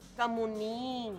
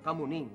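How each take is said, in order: First: The last syllable is slightly drawn out. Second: The last syllable is said short and straight. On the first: The speaker is faking being macho. "May kakaibang bahagyang extension dun sa dulo, dun sa ning" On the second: The speaker is a real man. "Diretso, ha? Talagang kamuning, ganun lang"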